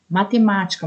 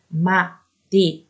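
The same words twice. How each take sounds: First: Said in the usual way. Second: "Matemática" slowly split as ma... te... má... ti... ca; lower, measured "Matemática" with pauses between all syllables. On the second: Shown as a demonstration. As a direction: sound out "Matemática" in five separate syllables. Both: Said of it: "matemática tem mais de quatro".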